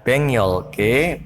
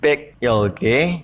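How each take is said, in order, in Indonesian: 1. Konsonan sebelum 'yolke' adalah bunyi 'ng'. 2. Konsonan sebelum 'yolke' adalah bunyi 'k'. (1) "dibaca bengyolke" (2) "bukan bekyolke"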